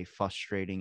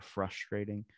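First: "frustrating" without its first r, as fuss-trating; mispronounced word. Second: Said in the usual way. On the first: Shown as a demonstration. Host admitting a word trouble, "frustrating" said as fuss-trating. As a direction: drop the r after the f in "frustrating". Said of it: "I like to say frustrating instead of". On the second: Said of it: "instead of frustrating".

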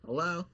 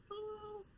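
First: Said in the usual way. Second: Very high, very soft faraway voice; tiny creature calling from the bottle; tiny distant voice. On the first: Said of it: "I'd unscrew the cap and I'd go". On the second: Retold or imitated. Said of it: "those exist within this water".

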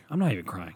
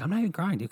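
First: Said in the usual way. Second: High, kidlike mock voice; imitating his son. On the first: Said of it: "That's what he would say". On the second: Imitating his newborn son scolding crying dad. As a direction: whine it like a bratty little kid. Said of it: "He'd be like".

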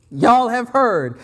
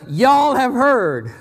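First: Y'all again slowly with falling stress. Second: Y'all drawn out slowly, stress on Y'all. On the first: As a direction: repeat Y'all slow and firm. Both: Shown as a demonstration. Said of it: "Jesus is saying".

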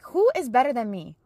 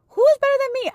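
First: Raised, brighter voice, building joy; excited praise. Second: Much higher and louder, near squeal; joyful shriek. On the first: Praising God in the kitchen, getting excited. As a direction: ask it like a happy boast. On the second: Praising God with mom, shrieking with joy. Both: Retold or imitated.

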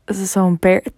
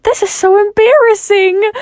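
First: Said in the usual way. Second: Much higher, louder embarrassed wail; high embarrassed whine. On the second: Retold or imitated. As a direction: squeal it out, mortified. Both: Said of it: "I was like".

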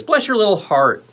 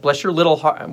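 First: Raised, high-pitched blessing; higher-pitched blessing. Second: Said in the usual way. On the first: Shown as a demonstration. Host bestows mock blessing on a viewer, high lilt. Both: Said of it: "we'll do it like this".

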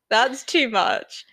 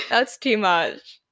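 First: Said in the usual way. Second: Laughing through "That's too much"; real laugh slowing the words. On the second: Real, not acted. To cohost after a joke, laughing helplessly.

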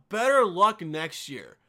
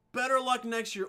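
First: "Better" hit hard and dragged out; dismissive stress on Better. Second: Said in the usual way. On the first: Shown as a demonstration. Brushing off a job complainer, slow scornful stress on Better. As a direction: drawl "Better luck" like a brush-off.

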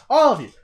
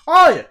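First: Loud, rising angry yell; angry yell building. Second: Much louder and higher, top of the yell; full angry shout. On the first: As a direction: shout it at everyone online. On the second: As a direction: scream it even harder at them. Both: Retold or imitated. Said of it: "I'm like".

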